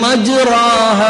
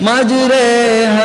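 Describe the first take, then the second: First: The long vowel after r sounds like open 'a'. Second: The long vowel after r leans toward 'e'.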